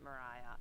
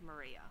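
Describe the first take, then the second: First: The middle syllable is said with an 'eye' vowel. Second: The middle syllable is said with an 'ee' vowel. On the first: "apparently Americans pronounced it Mariah, and that's what stuck" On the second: "I think it's Maria, but every Tasmanian will tell you we're wrong"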